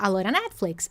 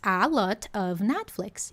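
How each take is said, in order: First: 'A lot of' is reduced to 'a lora'. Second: 'A lot of' is said fully, each word clear.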